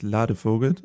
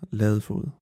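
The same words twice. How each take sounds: First: The name is given a German pronunciation. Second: The name is given a Danish pronunciation. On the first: "In Deutschland sagt man" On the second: "aber auf Dänisch ist das"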